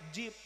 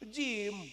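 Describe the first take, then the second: First: The word ends with a p sound. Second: The word ends with an m sound. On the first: This is a child's lisping mispronunciation. The speaker calls it wrong. "budak ibu kalah kah jip" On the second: This is the teacher's correct pronunciation. The speaker calls it right. "cek ajengan nyebut jim"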